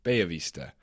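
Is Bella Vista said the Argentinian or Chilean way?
Chilean. It is said with a Chilean Spanish pronunciation. "Here in Santiago de Chile, we pronounce it"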